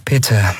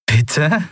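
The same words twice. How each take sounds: First: A carefully softened "Bitte."; trying to sound gentle. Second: Incredulous rising "Bitte?", as if she misheard; a light disbelieving "Bitte?" lifting up at the end; disbelieving question. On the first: Andriel tries to calm Lien after snapping, gently. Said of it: "Um Sanftheit bemüht". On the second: Lien can't believe she's being searched, incredulous "Bitte?". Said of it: "als habe sie sich verhört". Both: Acted.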